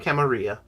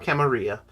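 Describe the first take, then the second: First: The word has an Italian-style pronunciation. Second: The word has an Italian-style pronunciation.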